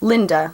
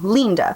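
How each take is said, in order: First: The first vowel is a short i sound. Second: The first vowel is a long ee sound. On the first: This is how the spelling reads in English. "in English you would pronounce it Linda" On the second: This is how the spelling reads in Italian. "in Italian you would look at an I and pronounce it as an E"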